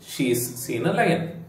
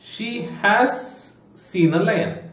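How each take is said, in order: First: She has is shortened into one syllable. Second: She has is said as two full words. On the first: "ಶಿ ಹ್ಯಾಸ್ ನದ್ದು contraction ಶೀಸ್ ಅಂತ" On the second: "ಶಿ ಹ್ಯಾಸ್"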